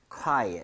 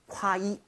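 First: Quiet를 U에 힘주고 끝 t를 살려 콰이엇; quiet의 둘째 모음을 또렷이, 끝은 가볍게; U 강세 quiet. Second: Quiet를 크와이처럼 끝을 흐리며 길게 끌어; quiet 끝소리를 삼키듯 과하게 늘여; 지나친 quiet. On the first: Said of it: "U의 강세를 좀 찍어서 읽을 때". (강세를 U에 찍어 quiet) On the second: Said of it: "너무 quiet 하지 마세요". (틀린 예시로 quiet를 길게 늘여 발음) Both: Shown as a demonstration.

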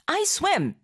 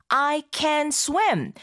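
First: Said in the usual way. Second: I can swim, each word drawn out slowly; slow, clear teaching read. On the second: Shown as a demonstration. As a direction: spell out every word slowly for learners. (학습자를 위해 아주 천천히 또박또박) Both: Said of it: "뭔가 좀 의미가 다르게 느껴지기도 하죠".

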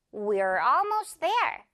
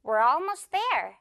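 First: "We're almost there" slowly, each word distinct; measured model of "We're almost there"; careful, slower. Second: "we're almost there" linked into one smooth run; a bit faster. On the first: Teacher gives learners the example first, carefully slow. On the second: Teacher shows learners the quicker version, a bit faster. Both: Shown as a demonstration. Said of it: "조금 더 빠르게 말하자면".

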